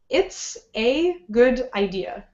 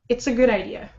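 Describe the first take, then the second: First: Each word is said separately with pauses. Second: The words are pushed smoothly together.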